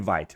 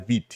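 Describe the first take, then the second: First: The name is said the popular, common way. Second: The name is said the original, official way. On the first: The speaker calls it wrong. "se popularizou chamar de Vite" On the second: The speaker calls it right. "na verdade o nome original dela é Vite"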